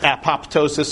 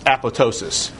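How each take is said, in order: First: The word is pronounced just as it is spelled. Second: The word is pronounced differently from its spelling. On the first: The speaker calls it wrong. "It looks like it's apoptosis" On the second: The speaker calls it right. "it's apoptosis"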